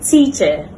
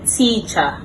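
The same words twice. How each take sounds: First: The ending is a short weak vowel. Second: The ending is an open ah vowel. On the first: The speaker calls it right. "correct pronunciation" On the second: The speaker calls it wrong. "commonly mispronounced"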